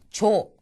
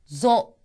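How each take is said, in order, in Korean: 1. 무성음이고, 입 앞부분에서 나는 소리예요. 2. 유성음이고, 목 안쪽에서 울리는 소리예요. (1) "조라고 발음하는 경우가 많거든요... 입 앞부분에서 발음이 날 겁니다. 이거는 성대로 울리고 있지 않는 거기 때문에" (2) "목 안쪽에서 소리가 낼 수 있도록"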